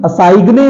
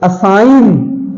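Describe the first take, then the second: First: असाइग्ने with hard g and final vowel; wrong pronunciation. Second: Said in the usual way. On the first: Shown as a demonstration. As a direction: sound the silent g in असाइग्ने. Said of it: "नहीं". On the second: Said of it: "जी silent है".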